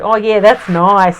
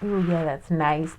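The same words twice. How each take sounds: First: It is said in a broad Australian accent. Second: It is said in a sexy North American accent. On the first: The speaker calls it wrong. "And then you got an Australian, it's like" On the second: The speaker calls it right. "like a sexy Canadian or American"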